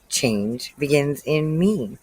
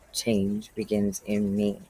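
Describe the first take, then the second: First: It is said at normal loudness. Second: It is said more quietly and lower.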